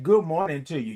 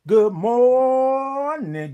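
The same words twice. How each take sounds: First: Said in the usual way. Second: Sung, high, loud, long held good morning; sung, belt MORNING on a stretched note; sung greeting. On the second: Real, not acted. Host greets Lady Ray, sung greeting.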